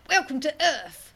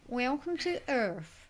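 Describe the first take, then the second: First: Louder, higher mock American voice, like Mister T; hammed-up American accent, a bit tough; attempted American accent. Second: Happy American accent. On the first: Mocking American accent for a podcast request. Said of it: "sounds like Mister T". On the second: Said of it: "kind of a happy Orlando voice". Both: Shown as a demonstration.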